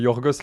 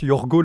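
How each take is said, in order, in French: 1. Le s final de Yorgos se prononce. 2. Le s final de Yorgos est muet. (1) "à la place de Yorgos" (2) "qui se prononce Yorgo"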